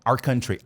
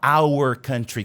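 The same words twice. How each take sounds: First: The two words are run together and reduced. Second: The two words are said separately and fully. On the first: "Ele fala our country" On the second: "ele não fala our country quando ele está falando tudo junto"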